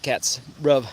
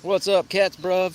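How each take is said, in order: First: Said in the usual way. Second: A hint of teen slang, higher and bouncy; daughter's slang greeting. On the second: Quoting the daughter's slang greeting, lightly mimicked and higher. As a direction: toss it off like a cool teenager. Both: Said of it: "My daughter says that".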